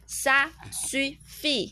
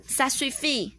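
First: "ça suffit" very slow, syllable by syllable; slow practice model. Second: Said in the usual way. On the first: Shown as a demonstration. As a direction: stretch out "ça suffit" for a learner to repeat. (慢慢地一个音节一个音节念ça suffit) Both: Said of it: "再练习一次".

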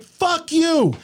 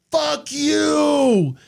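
First: High, angry fuck you thrown back at her; mock yelled back. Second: High, biting fuck you in her voice; her mock yell. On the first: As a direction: retort it through the window. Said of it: "I'm like". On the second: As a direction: fling it at him as she speeds past. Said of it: "she's like".

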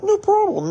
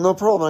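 First: High, bright-eyed eager "No problem"; hammed-up eager yes-man; eager reassurance. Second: Said in the usual way. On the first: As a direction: jump up high on "No". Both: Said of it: "I was like".

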